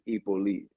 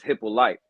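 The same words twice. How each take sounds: First: The name is said with a Haitian pronunciation. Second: The name is said with an American pronunciation. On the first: The speaker calls it right. "the way that we would say it in Haiti is" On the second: The speaker calls it wrong. "here in the American way of saying it is"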